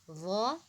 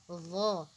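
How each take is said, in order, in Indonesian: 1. Diawali bunyi th dengan lidah di antara gigi. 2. Diawali bunyi th dengan lidah di antara gigi.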